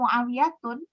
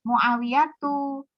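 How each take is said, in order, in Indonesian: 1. Nama itu berakhir dengan bunyi -un. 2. Nama itu berakhir dengan bunyi -u saja.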